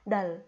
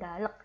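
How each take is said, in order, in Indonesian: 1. Hanya bunyi l yang terdengar di akhir. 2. Bunyi l, lalu vokal tambahan, lalu k yang terdengar. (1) "K-nya nanti nggak terbaca" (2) "bukan dalek"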